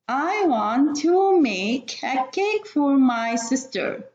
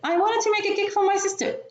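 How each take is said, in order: First: The sentence is read at a slower pace. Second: The sentence is rushed with some words swallowed.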